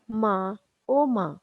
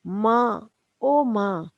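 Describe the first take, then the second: First: Drawn-out groan for mother, slow; slow moaning cry. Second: Calling out for mother in pain, louder; a groaning cry for mom. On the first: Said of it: "जोर से चिल्लाता है". (धीमे-धीमे कराहती पुकार) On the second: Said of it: "जोर से कराहकर". (दर्द से कराहते हुए ज़ोर से पुकार) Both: Retold or imitated.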